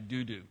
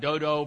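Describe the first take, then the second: First: Both vowels sound like 'oo'. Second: Both vowels sound like 'oh'. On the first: The speaker calls it right. "It's actually Dudu" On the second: The speaker calls it wrong. "it looks like Dodo, but actually that's not how you pronounce it"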